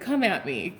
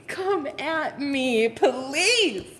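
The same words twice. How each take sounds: First: Said in the usual way. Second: High, stretched-out dare; slow, sassy come-and-get-me; confident taunt. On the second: Acted. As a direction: drag out every word as a cocky challenge. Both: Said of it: "You have this level of confidence".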